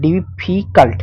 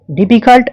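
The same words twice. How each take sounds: First: ডিফিকাল্ট split as ডি-ফি-কাল্ট, middle syllable stretched; broken into syllables. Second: Said in the usual way. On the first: Shown as a demonstration. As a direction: take ডিফিকাল্ট apart, holding the ফি. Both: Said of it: "একবারে হচ্ছে না".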